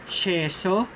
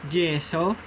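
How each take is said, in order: First: The consonant sounds like English sh. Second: The consonant sounds like English j. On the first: "The S H-like sound" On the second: "The J-like sound"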